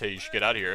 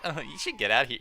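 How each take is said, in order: First: It is said plainly, without giggling. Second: It is said in a giggly, flirty way.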